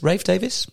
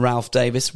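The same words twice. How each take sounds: First: "Rafe", long A and no L, higher, questioning; Ralph as Rafe. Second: "Ralph" as spelt, rhyming with Alf. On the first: Presenter unsure of an actor's name, questioning "Rafe". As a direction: try the name as "Rafe", rhyming with safe. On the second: Presenter naming an actor, "Ralph" said as spelt with L. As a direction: say "Ralph" with a short A and a sounded L. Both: Shown as a demonstration. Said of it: "Personal preference".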